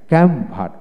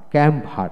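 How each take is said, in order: Both takes have the same delivery.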